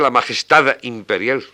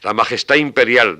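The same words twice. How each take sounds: First: The final D is clearly pronounced. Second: The final D is dropped, linking the words. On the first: The speaker calls it wrong. "pero nadie dice la majestad imperial" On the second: The speaker calls it right. "la supresión de la D para hacer sin alefa"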